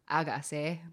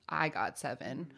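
First: It is said quickly with a Korean accent. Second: It is said plainly, at normal speed. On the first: It means baby bird. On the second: It names the fans after the group.

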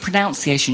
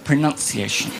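First: The second syllable sounds like 'noun'. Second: The second syllable sounds like 'nun'. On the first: The speaker calls it wrong. "Not the pronunciation, yeah?" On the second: The speaker calls it right. "The pronunciation"

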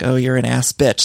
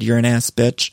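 First: It is said in a playful, teasing way. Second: It is said in a furious, yelling way.

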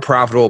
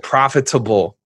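First: The word is said smoothly as usual. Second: Every syllable is stressed separately. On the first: The speaker calls it wrong. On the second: The speaker calls it right.

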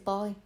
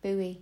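First: The word is pronounced the British way. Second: The word is pronounced the American way. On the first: "But it's a boy" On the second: "I think Americans say buoy"

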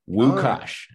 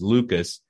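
First: The name begins with a W sound. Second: The name begins with an L sound.

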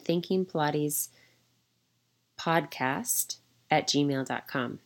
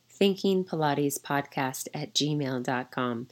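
First: It is said hesitantly, without confidence. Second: It is said firmly, with confidence.

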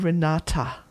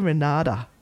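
First: The T in the middle is clearly sounded. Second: The T in the middle is not sounded. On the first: The speaker calls it right. "I don't say Renata" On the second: The speaker calls it wrong. "I say Renata. I don't sound the T. It's my Aussie accent"

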